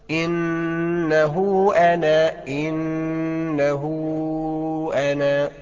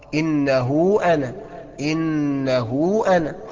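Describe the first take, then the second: First: The linking vowel is stretched out long. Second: The linking vowel is held only briefly. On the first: "اسمعها كده" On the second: "القصر قد ايه؟ حركتين اهو"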